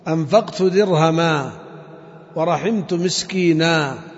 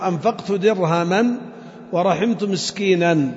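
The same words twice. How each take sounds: First: The final word ends with a long a. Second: The final word ends with an n sound. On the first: The phrase is read as a pausal form. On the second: The phrase is read in connected speech.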